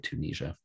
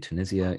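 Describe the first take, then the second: First: It is said with an American pronunciation. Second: It is said with a British pronunciation. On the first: "in the U S they say" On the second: "in the U K they say"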